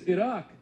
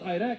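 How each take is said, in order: First: The country name is pronounced carefully. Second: The country name is pronounced sloppily. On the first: The speaker calls it right. "at least pronounce it right" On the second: The speaker calls it wrong. "It's not Iraq"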